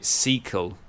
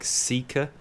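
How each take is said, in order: First: The name ends with an L sound. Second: The name ends with an R sound. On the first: The speaker calls it wrong. "I was pronouncing it Seakel" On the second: The speaker calls it right. "but I think it's like Seeker"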